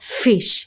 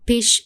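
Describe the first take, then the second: First: The word begins with an f sound. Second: The word begins with a p sound. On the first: The speaker calls it right. "It's ஃபிஷ்" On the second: The speaker calls it wrong. "It's not பிஷ்"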